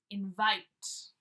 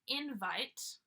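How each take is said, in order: First: The stress is on the second syllable. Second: The stress is on the first syllable.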